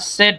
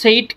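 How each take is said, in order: First: The vowel is a short 'eh' sound. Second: The vowel is a long 'ay' sound. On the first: The speaker calls it right. "সেড উচ্চারণ" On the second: The speaker calls it wrong. "সেইড কিন্তু উচ্চারণ না"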